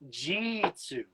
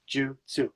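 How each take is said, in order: First: The first vowel is a clear 'i' sound. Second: The first vowel is a devoiced 'u' sound. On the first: The speaker calls it wrong. "people mispronounce jutsu" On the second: The speaker calls it right. "we devoice both the U's"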